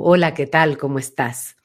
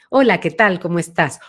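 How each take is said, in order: First: The voice is placed far back and deep. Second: The voice has a medium, central timbre.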